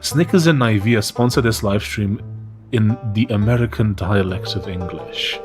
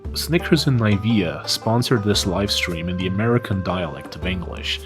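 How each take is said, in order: First: It is read in the speaker's usual accent. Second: It is said in a put-on American accent.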